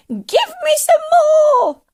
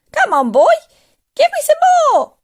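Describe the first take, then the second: First: Slow, very high shriek; greedy old woman hollering; demanding cry. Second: Loud screechy demand, rising very high; bossy old woman hollering; impatient yell. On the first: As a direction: screech the demand at full force. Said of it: "she cried". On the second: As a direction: yell to hurry the boy up. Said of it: "she yelled". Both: A narrator's reading.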